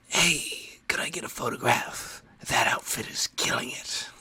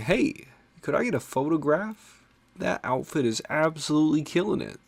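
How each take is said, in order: First: It is said in a sinister, unsettling tone. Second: It is said in a friendly, harmless tone.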